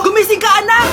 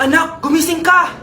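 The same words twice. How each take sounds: First: Louder, more urgent wake-up call; mother calling louder to wake her daughter. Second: Said in the usual way. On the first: Acted. Mother calls again, louder.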